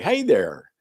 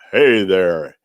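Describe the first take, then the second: First: It is said in a natural speaking voice. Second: It is said in a put-on DJ voice.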